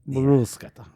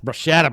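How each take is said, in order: First: The word is said the Italian way. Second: The word is said the English way. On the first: The speaker calls it right. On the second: The speaker calls it wrong.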